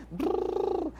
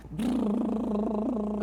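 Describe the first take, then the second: First: Slower brrr lip buzz; lip trill for baby. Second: Slow rolling lip trill brrr; toy truck lip buzz. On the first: Parent looking at a baby and making lip trills, gentle. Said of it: "olhando pra esse bebê e fazendo". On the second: Playing trucks with a boy, slow lip trill engine noise. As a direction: buzz your lips like a little truck. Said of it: "brincando com a criança". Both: Shown as a demonstration.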